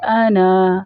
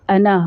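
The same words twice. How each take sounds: First: آنا read with a full long aa at the start; full aana at a stop. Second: انا read joined, with the alif dropped and a short first vowel; short joined ana. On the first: Teacher shows the full reading when stopping on the word. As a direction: stretch the alif in آنا because you stop on it. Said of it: "جب ہم اس لفظ کے اوپر وقف کریں گے تو پھر ہم اس کو پورا". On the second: Teacher shows children the joined reading, with the alif dropped. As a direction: say انا quickly with no long aa. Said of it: "الف کو حذف کر دیں گے". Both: Shown as a demonstration.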